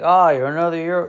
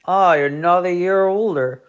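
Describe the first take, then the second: First: Lightly voiced old colonel, higher and louder; a hint of a folksy old colonel; mock Southern gent, only a touch put on; colonel impression. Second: Lightly voiced old colonel, higher and louder; a hint of a folksy old colonel greeting the birthday kid; barely shifted colonel voice, pitched up; colonel impression. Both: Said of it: "this is my colonel impression".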